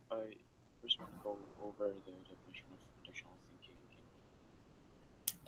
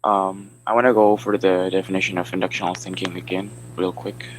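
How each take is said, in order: First: Very soft, barely audible; too quiet. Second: Loud, projected presenting voice; speaking up. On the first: Student starts presenting to the class, far too quietly. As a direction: speak far too softly to be heard. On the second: Student restarts the presentation after being asked, speaking louder. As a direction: project so the whole class hears. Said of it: "speak a little bit louder". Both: Real, not acted.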